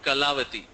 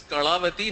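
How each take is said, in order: First: Said in the usual way. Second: "Kalavati" with the L curled back; Kannada retroflex L. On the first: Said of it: "not Kalavati". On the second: Shown as a demonstration. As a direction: curl the tongue back on the L of "Kalavati". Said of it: "She says it's Kalavati".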